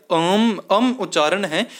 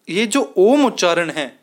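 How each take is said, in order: First: "अम" opened with an "a" sound into "m"; "अम" pronounced Aum in place of Om; alternative Om pronunciation. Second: Said in the usual way. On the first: Shown as a demonstration. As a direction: say "अम" as Aum, starting on "a". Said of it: "ये जो ओम उच्चारण है या". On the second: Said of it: "या अम".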